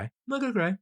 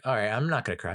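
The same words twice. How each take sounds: First: High, squeaky near-crying voice; mock tearful. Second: Retold self-pep-talk, fairly even; telling himself firmly to hold it in; resolved. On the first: Thought he could hold it in, mock tearful. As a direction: imitate losing the fight against tears, pitched way up. Retold failing to hold back tears. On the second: Thought he could hold it in, resolved.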